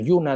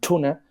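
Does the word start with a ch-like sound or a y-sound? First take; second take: y-sound; ch-like. First: The word begins with a soft y-like sound. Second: The word begins with a ch-like sound. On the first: "en lugar de decir yuna" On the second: "dicen tuna"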